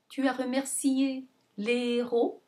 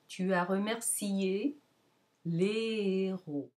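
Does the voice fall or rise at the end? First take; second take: rise; fall. First: The pitch rises on the last syllable. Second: The pitch falls on the last syllable. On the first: It asks a yes-no question. "the last syllable will move up instead of down" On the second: It states a fact. "as a declarative, the tone goes down at the end"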